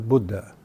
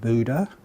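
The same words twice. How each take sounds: First: The U vowel is short. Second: The U vowel is long. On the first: The speaker calls it right. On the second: The speaker calls it wrong.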